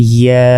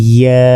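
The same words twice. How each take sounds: The two takes are said the same way.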